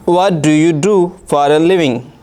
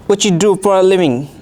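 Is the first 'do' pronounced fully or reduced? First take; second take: fully; reduced. First: Every word is pronounced fully and separately. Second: The first 'do' is reduced and blended away. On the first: This is how learners say it. "अगर हम इससे कहेंगे तो ये कहेंगे" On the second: This is how native speakers say it. "अंग्रेज़ कोई native speaker ... हमें ऐसे सुनाई देगा"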